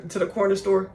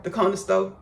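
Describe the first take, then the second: First: Said in the usual way. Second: Country accent. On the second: Shown as a demonstration. Telling of horse rides to the store, country accent. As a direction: say CORNER STORE country-style, like "conna sto'". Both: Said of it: "speaking a country accent on purpose".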